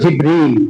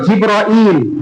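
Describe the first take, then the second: First: The name is said with two syllables. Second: The name is said with three syllables. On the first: "আরেকটা হলো জিবরিল" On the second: "একটা হলো জিবরাইল"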